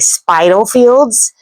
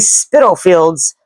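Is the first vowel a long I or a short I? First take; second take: long I; short I. First: The first vowel is a long I sound. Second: The first vowel is a short I sound. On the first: The speaker calls it wrong. "pronounce this with a long I" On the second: The speaker calls it right. "with a short I sound"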